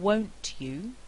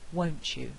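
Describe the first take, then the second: First: The t and y stay separate sounds. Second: The t and y merge into ch.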